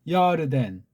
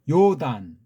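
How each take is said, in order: First: Three syllables with an R sound in the middle. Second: Two syllables with no R sound at all. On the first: The speaker calls it right. "하나, 둘, 세 음절에" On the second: The speaker calls it wrong. "이 R 사운드가 완전히 하나가 없어졌어요"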